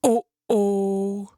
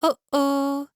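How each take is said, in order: First: It is said in a big, deep voice. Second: It is said in a small, high voice.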